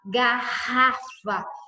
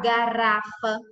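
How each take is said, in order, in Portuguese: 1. O R do meio é um som forte e firme. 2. O R do meio é um som fraco, de uma batida só. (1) "eu falo garrafa" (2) "eu não falo garrafa"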